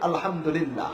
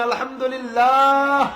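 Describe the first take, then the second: First: It is said in a loud voice. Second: It is said even louder, at full volume.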